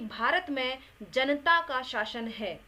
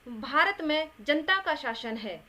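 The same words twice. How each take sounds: First: The n is said with a following vowel. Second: The n is said without a following vowel. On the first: The speaker calls it right. "ना को हमने स्वर सहित बोला है" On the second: The speaker calls it wrong. "ना को हमने स्वर रहित कर दिया है"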